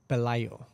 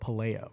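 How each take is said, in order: First: The name is said with a Spanish pronunciation. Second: The name is said with an English pronunciation. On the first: This is the name's original pronunciation. "Spanish pronunciation is Pelayo" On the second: This is how English speakers usually say the name. "they would pronounce it Paleo, which is fine too"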